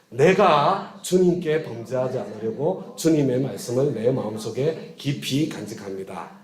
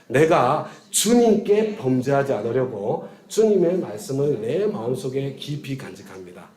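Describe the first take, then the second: First: The stress is on 내가. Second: The stress is on 주님께.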